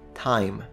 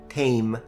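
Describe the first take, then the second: First: The vowel is an eye sound. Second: The vowel is an ay sound. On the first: This is the later, modern pronunciation. "only finally in the 18th century, I" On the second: This is the fifteenth-century pronunciation. "the vowel changed from E to A"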